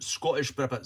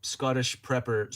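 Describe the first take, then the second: First: Scottish accent. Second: Said in the usual way. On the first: Shown as a demonstration. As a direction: redo the name in a Scottish accent. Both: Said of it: "practicing my Scottish accent".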